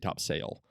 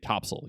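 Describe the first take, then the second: First: It is pronounced the way non-locals say it. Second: It is pronounced the way locals say it. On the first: The speaker calls it wrong. "you don't say Topsail" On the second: The speaker calls it right. "if you're local, you say Topsail"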